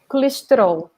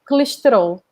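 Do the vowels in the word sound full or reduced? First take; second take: reduced; reduced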